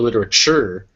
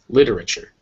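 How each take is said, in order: First: The stress falls on a later syllable. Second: The stress falls on the first syllable. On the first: The speaker calls it wrong. "it's not literature" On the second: The speaker calls it right. "lit is the stressed syllable here"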